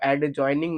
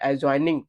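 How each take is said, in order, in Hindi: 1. d की ध्वनि साफ़ बोली जाती है। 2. d की ध्वनि साइलेंट छोड़ दी जाती है।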